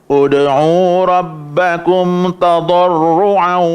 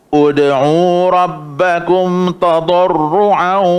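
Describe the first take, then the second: Both takes have the same delivery.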